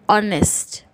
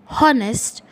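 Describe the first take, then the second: First: The word begins with a vowel sound. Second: The word begins with an h sound. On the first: The speaker calls it right. "the first letter that we hear is O" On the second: The speaker calls it wrong. "It is not honest"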